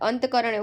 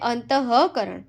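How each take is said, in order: First: No h sound follows 'ant'. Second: An h sound follows 'ant'. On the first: The speaker calls it wrong. "અંતકરણ એવું બોલીએ, આખો meaning બદલાઈ જાય" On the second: The speaker calls it right. "અંતઃકરણ એવું બોલીએ છીએ આપણે"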